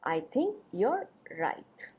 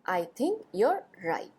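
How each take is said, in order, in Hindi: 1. 'You' और 'are' एक ही अक्षर में जुड़कर बोले जाते हैं। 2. 'You' और 'are' एक ही अक्षर में जुड़कर बोले जाते हैं।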